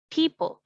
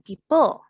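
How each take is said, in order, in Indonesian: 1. Penekanannya ada di suku kata pertama. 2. Penekanannya ada di suku kata kedua. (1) "People ada di P" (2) "bukan people"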